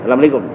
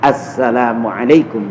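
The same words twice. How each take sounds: First: The s sound is short and single. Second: The s sound is held long and doubled. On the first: The speaker calls it wrong. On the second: The speaker calls it right. "begitu. ... Atas sin sabdunya"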